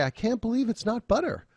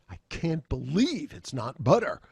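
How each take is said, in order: First: High-pitched, pleasantly surprised gush; delighted amazement. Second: Higher, incredulous emphasis on believe; appalled disbelief. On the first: Lecturer voices someone loving the butter substitute, delighted amazement. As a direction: say it amazed at how good it tastes. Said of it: "Hmm, it's so good". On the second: Lecturer flips the slogan's meaning by inflection, appalled disbelief. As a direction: say it as if disgusted anyone would buy it. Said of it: "use a little different emotive, uh, inflection in your voice". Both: Shown as a demonstration.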